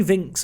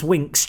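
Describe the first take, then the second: First: "Vinks" begun with a V sound; French-style mispronunciation. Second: "Winks" begun with an English W; English pronunciation. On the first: Gamer slipping on a player's name, French-style "Vinks" with a V. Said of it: "said him Vinks like he's French". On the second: Gamer correcting himself on a player's name, English "Winks" with a W. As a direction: say "Winks" with a rounded W, not V. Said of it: "It's Winks, [name]. He's English". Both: Real, not acted.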